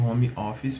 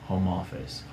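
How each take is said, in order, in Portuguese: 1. É pronunciado com sons adaptados ao português. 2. É pronunciado com sons do inglês, com as palavras ligadas entre si. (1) "podem continuar falando home office perfeitamente" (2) "a gente diz na verdade home office"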